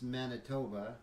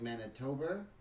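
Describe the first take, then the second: First: It is said in his natural New York accent. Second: It is said in an altered, non-native pronunciation. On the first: It reveals where the speaker is from. "the way I say Manitoba, it gives away like where I'm from" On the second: It tries to hide where the speaker is from. "if I go like Manitoba, that doesn't sound right"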